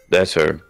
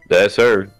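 First: Said with a posh, elegant accent. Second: Said with a southern accent. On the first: "do a posh voice" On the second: "No. That's too southern"

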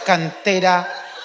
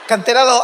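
First: It is said slowly and drawn out. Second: It is said at a normal speed.

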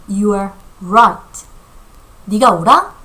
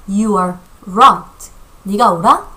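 The two takes are said the same way.

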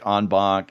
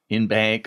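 First: The term is said with French-style vowels. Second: The term is said with English-style vowels.

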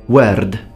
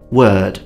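First: The R sound is rolled or tapped. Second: The R sound is silent. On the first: "Let's add a Italian R" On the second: "I don't pronounce the R"

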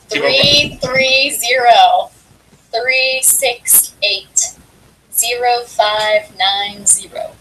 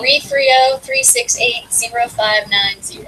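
First: The number is read at a slow pace. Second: The number is read at a quick pace.

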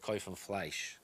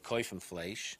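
First: It is said in a Polish Yiddish accent. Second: It is said in a Ukrainian Yiddish accent. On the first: "And in Polish Yiddish, they would say" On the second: "In Ukrainian Yiddish, they would say"

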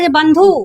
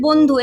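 First: The word is sounded out letter by letter. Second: The word is spoken smoothly as one unit. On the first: The speaker calls it wrong. "আমরা কি বলি এরকম? বলি না।" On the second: The speaker calls it right. "আমরা বলি বন্ধু।"

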